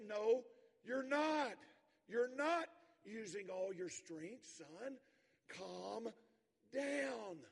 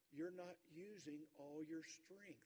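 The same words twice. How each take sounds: First: Raised, high, firm and slow; father firmly calming his shouting son. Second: Slow, level, looking him in the eye; father calmly correcting his son; calm and steady. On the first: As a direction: override the boy's fit, then settle him. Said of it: "His father says". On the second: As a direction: say it calmly and deliberately. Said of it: "looks him right in the eye". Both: Retold or imitated.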